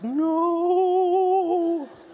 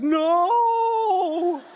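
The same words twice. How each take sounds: First: It sounds dismayed and refusing. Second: It sounds delighted and amazed.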